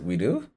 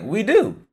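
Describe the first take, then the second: First: It is said as a question, rising. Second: It is said as a statement, falling.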